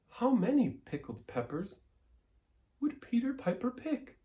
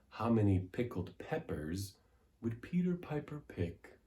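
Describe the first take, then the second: First: It is said in a high head voice. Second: It is said easily, slower, with long vowels. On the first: "in a high voice. up here in our head voice" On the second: "Let's do it easy, A little slower rhythm, elongating those vowels"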